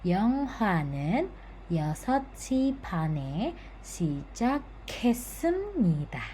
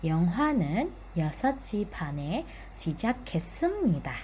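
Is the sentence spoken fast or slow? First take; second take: slow; fast. First: The sentence is spoken slowly. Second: The sentence is spoken faster. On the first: "saya ulangi lagi secara pelan-pelan" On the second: "kita lebih cepat"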